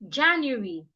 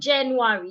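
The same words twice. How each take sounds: First: The first vowel sounds like 'a'. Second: The first vowel sounds like 'e'. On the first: The speaker calls it right. "it's ja" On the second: The speaker calls it wrong. "So it's not January"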